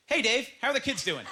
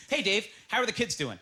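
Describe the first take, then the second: First: Same greeting with awkward body language; a touch louder, off-kilter greeting; changed body language. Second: Said in the usual way. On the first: Shown as a demonstration. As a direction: say it while acting weird. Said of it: "let's change the body language". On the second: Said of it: "take these two phrases".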